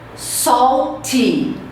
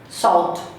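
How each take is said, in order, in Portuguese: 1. A vogal final é pronunciada claramente. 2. A vogal final é omitida. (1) "Vamos ver a maneira correta de pronunciar" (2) "Como que o brasileiro fala?"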